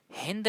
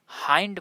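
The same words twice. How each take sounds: First: "हिंद" with a short i vowel; wrong pronunciation. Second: "हाइंड" with an eye vowel; correct pronunciation. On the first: Teacher warning against misreading hind in English, short-vowel pronunciation. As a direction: say "हिंद" as in the Hindi word. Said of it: "हिंद नहीं पढ़ते". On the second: Teacher showing the English reading of hind, correct long-i pronunciation. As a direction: say "हाइंड", i sounded as "आई". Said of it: "हाइंड पढ़ते हैं इसे". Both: Shown as a demonstration.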